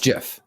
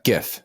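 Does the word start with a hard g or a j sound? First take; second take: j sound; hard g. First: The word begins with a j sound. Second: The word begins with a hard g sound. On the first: The speaker calls it right. "Jif, like the peanut butter" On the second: The speaker calls it wrong.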